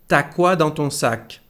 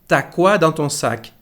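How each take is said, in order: Both takes have the same delivery.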